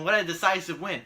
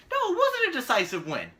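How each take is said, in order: First: Mock praise. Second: Wasn't hit hard and high, with a laugh; laughing, punch the word wasn't to correct them; stress on wasn't. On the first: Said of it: "And they were like". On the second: Real, not acted.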